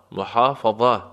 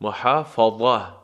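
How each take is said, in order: First: Said in the usual way. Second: محافظه said slowly with a throaty ح and a heavy, full ظ; slow demo of محافظه, weighty ظ; slow model pronunciation. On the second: Shown as a demonstration. Teacher modelling محافظه slowly for the class, heavy ظ.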